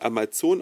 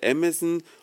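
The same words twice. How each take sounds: First: The company name is pronounced with German sounds. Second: The company name is pronounced with English sounds. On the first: The speaker calls it wrong. "in Deutschland Amazon ausgesprochen wird, von vielen falsch" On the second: The speaker calls it right. "Eigentlich heißt er ja Amazon"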